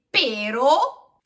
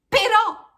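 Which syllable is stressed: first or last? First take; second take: first; last. First: The stress is on the first syllable. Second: The stress is on the last syllable. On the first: It means the pear tree. The speaker calls it wrong. "se per caso vi sbagliate e dite pero, senza accento" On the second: It means 'but'. The speaker calls it right. "fate sentire il suono del suo accento"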